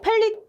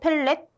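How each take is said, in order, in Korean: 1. 마지막 음절에는 'ee' 모음이 있어요. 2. 마지막 음절에는 'e' 모음이 있어요. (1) "펠릿 또는 펠렛" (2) "정직한 발음으로"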